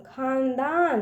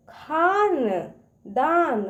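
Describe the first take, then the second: First: Said in the usual way. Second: खानदान slow, each syllable apart; sounding out syllables. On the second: Shown as a demonstration. Teacher shows kids how to break a word, slowly. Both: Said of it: "उसको तोड़ तोड़ पढ़िए".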